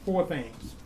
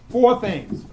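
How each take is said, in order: First: Said in the usual way. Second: "Four things" said higher and louder, Four hit hard; emphatic repeat. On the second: Shown as a demonstration. Teacher to class, driving home the count with an emphatic repeat.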